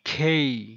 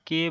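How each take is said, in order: First: The k has a puff of air after it. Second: The k has no puff of air after it. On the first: The speaker calls it right. "এটার উচ্চারণ হবে খেই" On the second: The speaker calls it wrong. "কিন্তু এটার উচ্চারণ কে হবে না"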